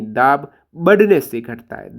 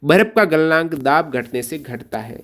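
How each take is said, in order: First: Slow correction with बढ़ने pressed hard; stress on बढ़ने. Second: Said in the usual way. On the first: Shown as a demonstration. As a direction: correct the student by slowly punching बढ़ने. (बढ़ने पर ज़ोर देकर धीरे से सुधारें) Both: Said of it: "घटने नहीं".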